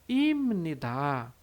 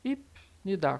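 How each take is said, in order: First: A nasal m sound comes before n. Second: A short stopped p sound comes before n. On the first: This is how it is said in everyday speech. "no dia a dia, como é que a gente vai ler? ... vai ficar com som de M" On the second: Each syllable is read separately. "se a gente fosse ler bem separado, ia ficar ipnidá. Ipnidá, com som de P seco"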